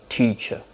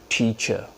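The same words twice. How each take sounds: The two takes are said the same way.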